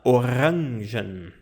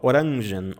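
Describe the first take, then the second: First: The R is made at the back of the throat. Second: The R is made with the tip of the tongue. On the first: "é pronunciado no fundo da garganta" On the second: "pronunciar com a ponta da língua"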